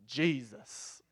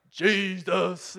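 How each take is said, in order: First: JESUS set apart after a pause, falling; odd emphatic delivery. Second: Loud, exaggerated, drawn-out mimicry; mock the preachy way of saying Jesus; mocking imitation. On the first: Retold or imitated. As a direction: say JESUS lower and drawn out, on its own. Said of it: "Why do you say". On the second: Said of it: "Why do you say it like that".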